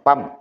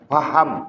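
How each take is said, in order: First: The word is clipped to one short syllable. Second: The word is said in full, with both syllables. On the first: The speaker calls it wrong. "Jangan pam" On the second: The speaker calls it right. "Jangan pam ya"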